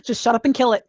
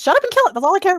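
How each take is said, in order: First: Said in the usual way. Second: Higher, louder, fast repeat; louder fast insistent. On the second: Real, not acted. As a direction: snap it out again, pushier. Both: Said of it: "repeated louder".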